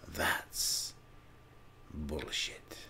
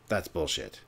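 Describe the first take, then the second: First: It is said in a weird, creepy put-on voice. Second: It is said in a normal speaking voice. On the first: "my weird Joker creepy con" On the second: "Like my regular voice?"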